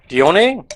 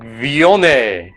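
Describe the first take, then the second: First: The name begins with a D sound. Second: The name begins with a V sound. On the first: The speaker calls it right. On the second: The speaker calls it wrong.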